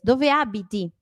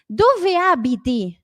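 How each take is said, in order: First: Said in the usual way. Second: Higher, louder, drawn-out "Dove abiti?"; slow model question. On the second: Shown as a demonstration. Teacher introducing where-you-live question, slow model. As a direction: spell it out slowly for learners.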